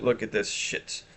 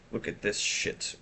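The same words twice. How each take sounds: First: Said in the usual way. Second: Whispered, slower and much softer; hushed repeat. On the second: Shown as a demonstration. Streamer repeating herself to chat in a whisper. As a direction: drop to a breathy aside.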